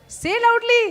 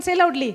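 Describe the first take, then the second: First: Louder repeat. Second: Said in the usual way. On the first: Real, not acted. Preacher to congregation, urging louder, a rising call. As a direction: say loudly, louder, higher.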